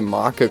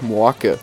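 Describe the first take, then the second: First: It is said in standard German pronunciation. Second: It is said in an Austrian dialect pronunciation.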